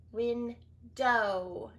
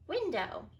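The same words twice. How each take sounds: First: Window with the final O drawn out; teacher stretching the O in Window; stretched long O. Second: Said in the usual way. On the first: Shown as a demonstration. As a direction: hold the long O at the end of Window. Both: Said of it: "Do you hear the long O?".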